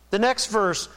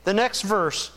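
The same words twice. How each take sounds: The two takes are said the same way.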